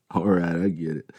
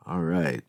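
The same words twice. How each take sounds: First: All right said through a chuckle; laughing concession. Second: Said in the usual way. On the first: A narrator's reading. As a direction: laugh and give in.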